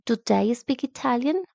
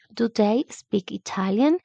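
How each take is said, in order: First: Said in the usual way. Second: Slowed down with a rising question tune; slow model question. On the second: Shown as a demonstration. Teacher repeats the question slowly for students. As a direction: spell out each word for learners. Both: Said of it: "la entonación de pregunta".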